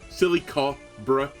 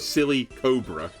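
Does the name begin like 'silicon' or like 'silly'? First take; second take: silicon; silly. First: The name begins like the word silicon. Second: The name begins like the word silly. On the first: The name is silicon plus cobra. "combination of silicon and cobra" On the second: The name is silly plus cobra.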